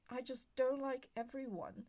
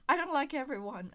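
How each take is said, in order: First: Said in the usual way. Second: Much louder, insisting. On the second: Real, not acted. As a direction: push it out hard. Repeats her point much louder.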